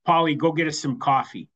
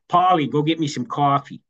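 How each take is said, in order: First: Said in the usual way. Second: Imitated Bronx wife sending her husband off; Bronx accent. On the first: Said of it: "So it was". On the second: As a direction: say it in Bronx speech. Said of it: "they're both from the Bronx".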